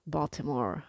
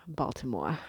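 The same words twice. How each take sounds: First: Said in the usual way. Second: Baltimore accent, BALTIMORE with the final r dropped. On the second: Shown as a demonstration. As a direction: lower Baltimore-accent demo, ending in an open "-moah".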